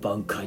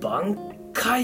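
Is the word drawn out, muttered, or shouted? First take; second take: muttered; drawn out. First: The word is muttered quietly. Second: The word is held and drawn out.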